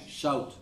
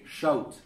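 First: The sh sound is made at the mouth's front. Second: The sh sound is made further back, tongue raised. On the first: The speaker calls it wrong. "It's the front, right?" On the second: The speaker calls it right. "Now you have to say shout"

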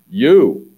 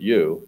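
First: The word is said with strong emphasis. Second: The word is said plainly, without emphasis.

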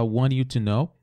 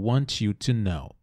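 First: The t in 'want' sounds like a quick r. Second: The t in 'want' is a plain t sound.

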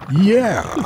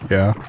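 First: It is said with emphasis and excitement. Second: It is said flatly, without energy.

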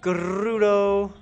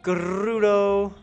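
First: The R is rolled with a trill. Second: The R is rolled with a trill.

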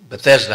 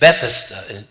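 First: The word is pronounced in the common form. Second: The word is pronounced in a fuller form. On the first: The speaker calls it wrong. "It's not Bethesda, how we often pronounce it" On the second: The speaker calls it right. "It's actually Bethesda, the way it's elaborated"

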